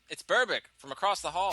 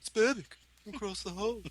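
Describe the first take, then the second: First: It is said in the speaker's plain accent. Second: It is said in a put-on English accent.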